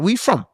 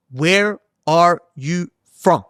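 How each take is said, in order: First: Said in the usual way. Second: Each word drawn out slowly and clearly; slowly restating the question to a confused stranger; slow deliberate. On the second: Retold or imitated. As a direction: spell it out slowly for someone who didn't catch it. Repeats slowly after not understood.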